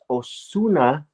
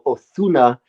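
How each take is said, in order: First: The middle consonant is a plain hissing sound. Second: The middle consonant is lisped like 'th'. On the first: "properly it's Osuna" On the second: "they'll even put a lisp on it"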